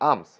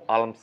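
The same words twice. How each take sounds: First: The L sound is silent in the word. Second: The L sound is pronounced in the word. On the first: The speaker calls it right. "এল এল silent" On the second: The speaker calls it wrong. "আর্মস না"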